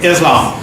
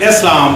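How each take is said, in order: First: The name is said with an American pronunciation. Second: The name is said with a native, non-American pronunciation. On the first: The speaker calls it wrong. "mispronounced by Americans as Islam" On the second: The speaker calls it right. "it's actually Islam"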